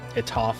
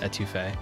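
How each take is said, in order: First: The word is clipped short without its last syllable. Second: The word is said in full with its last syllable. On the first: The speaker calls it wrong. "I thought it'd be funny if I pronounced it completely incorrectly" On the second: The speaker calls it right. "I know it's pronounced etouffee"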